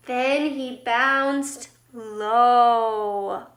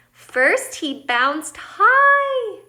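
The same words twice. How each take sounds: First: Very slow, LOW stretched out deep; low bounce. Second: HIGH soars up, long and loud; slow build to a high, drawn-out HIGH; high bounce. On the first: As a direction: sink down on a long, drawn-out LOW. Acts out the word low. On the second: Acts out the word high. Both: A narrator's reading.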